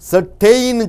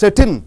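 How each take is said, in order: First: A full vowel is said between t and n. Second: The t goes straight into the n. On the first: The speaker calls it wrong. "செட்டெயின் சொல்லக்கூடாது" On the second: The speaker calls it right. "டீயிலிருந்து எண்ணுக்கு jump ஆகிவிட வேண்டும்"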